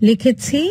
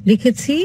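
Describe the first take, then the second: No difference in how they are said.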